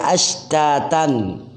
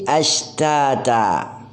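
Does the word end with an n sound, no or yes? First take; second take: yes; no. First: The word ends with an n sound. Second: The word ends on a vowel, without n. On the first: The reading continues into the next word. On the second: The reading stops at this word.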